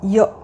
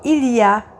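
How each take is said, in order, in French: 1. Ça se contracte en une seule syllabe, ya. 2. Ça se dit en entier, avec le L. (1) "on dit ya" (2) "On ne dit pas il y a"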